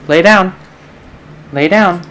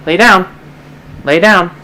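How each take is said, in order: Both takes have the same delivery.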